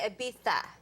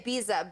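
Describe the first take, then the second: First: It is said with a Spanish pronunciation. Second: It is said with an American pronunciation. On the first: This is how people in Spain say it. "if you go to Spain, they say Ibiza" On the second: This is how Americans say it. "Americans say Ibiza"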